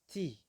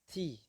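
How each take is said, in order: The two takes are said the same way.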